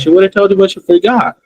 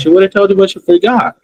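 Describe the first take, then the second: First: The words run together with linked sounds. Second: The words run together with linked sounds.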